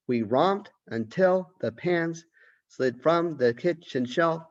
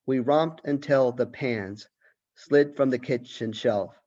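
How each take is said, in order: First: Sung, higher, slow sing-song nursery rhyme reading; sung, lilt it like a children's rhyme. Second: Said in the usual way. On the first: Shown as a demonstration. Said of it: "almost like a nursery rhyme".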